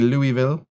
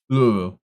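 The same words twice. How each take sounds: First: The name is said with every syllable clear. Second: The name is said slurred, like mumbling. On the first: "You don't say Louisville?" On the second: "It's like, it's like you're mumbling"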